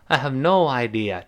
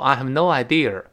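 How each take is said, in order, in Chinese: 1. idea 结尾没有任何 r 音。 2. idea 结尾多加了一个 r 音。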